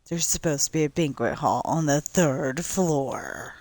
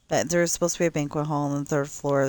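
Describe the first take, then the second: First: It is said in a dramatic, mysterious tone. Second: It is said in a plain, matter-of-fact tone. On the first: It sounds like a hidden secret. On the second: It is just a simple fact.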